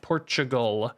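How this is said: It is said with an American pronunciation. "I think Americans all say it Portugal"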